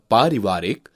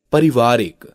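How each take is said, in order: First: पारिवारिक with long first aa; correct vowel length. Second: पारिवारिक with short first a; wrong vowel length. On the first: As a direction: draw out 'paa' in पारिवारिक. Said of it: "आ की मात्रा संबंधी". (पारिवारिक में लंबा 'पा') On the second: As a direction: say पारिवारिक as 'parivaarik'. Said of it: "अशुद्ध शब्द है". (पारिवारिक को 'परिवारिक' बोलना) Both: Shown as a demonstration.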